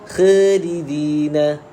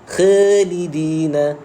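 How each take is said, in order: Both takes have the same delivery.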